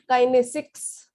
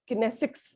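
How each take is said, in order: First: "kinesics" with first syllable as KAI; first pronunciation variant. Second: "kinesics" with short first syllable, ki-NE-sics; second pronunciation variant. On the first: Teacher offering ways to say a term, "kinesics" as KAI-nesics. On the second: Teacher offering another way to say it, "kinesics" as ki-NE-sics. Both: Shown as a demonstration. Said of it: "however you would like to pronounce it".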